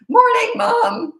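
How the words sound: The voice cracks, breaking between pitches.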